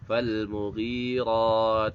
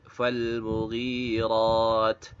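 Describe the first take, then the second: No difference in how they are said.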